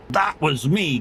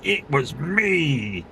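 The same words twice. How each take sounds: First: Said in the usual way. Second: Lightly voiced proud confession, very slow; a hint of Jim Carrey owning up, drawn out slowly; slow, smug "It was me" in a light Jim Carrey style. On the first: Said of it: "Kev would have went". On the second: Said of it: "He, he'd be like".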